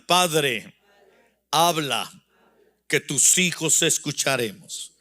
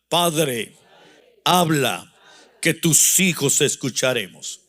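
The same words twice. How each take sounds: First: It is said at normal volume. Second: It is said more loudly.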